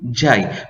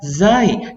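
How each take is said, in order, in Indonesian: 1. Diawali dengan bunyi j. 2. Diawali dengan bunyi z. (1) "menyebut dengan sebutan yang salah, iaitu jai" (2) "sebutan asalnya ialah zai"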